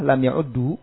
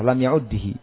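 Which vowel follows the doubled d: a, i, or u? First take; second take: u; i. First: The vowel after the doubled d is u. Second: The vowel after the doubled d is i. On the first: "bisa dengan dhammah" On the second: "dibaca dengan kasrah"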